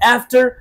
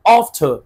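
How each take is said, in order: First: It is said with an American accent. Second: It is said with a British accent.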